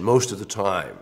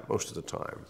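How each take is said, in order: First: Said in the usual way. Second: Breathy whispered echo of the phrase, most of the time; soft unvoiced aside; whispered repeat. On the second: Shown as a demonstration.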